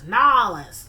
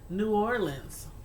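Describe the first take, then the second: First: The city name is squeezed into two short syllables. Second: The city name is said in full, several syllables. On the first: This is how many Southern people say it. "I started hearing people say" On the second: This is how the speaker always said it. "all my life, always called it New Orleans"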